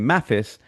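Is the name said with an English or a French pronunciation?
English. The name is said with an English pronunciation. "an English person would just say Mathis"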